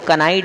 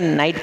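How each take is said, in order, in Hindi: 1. शुरू का k उच्चारित होता है। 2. शुरू का k मूक है। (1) "कनाइट है" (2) "नाइट पढ़ते हैं"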